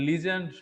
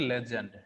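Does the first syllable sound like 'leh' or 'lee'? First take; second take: lee; leh. First: The first syllable has an 'ee' vowel. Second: The first syllable has an 'eh' vowel. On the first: "যেমন লিজেন্ড শব্দটা বলা হয়" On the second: "শব্দটার মূল উচ্চারণটা হবে লেজেন্ড"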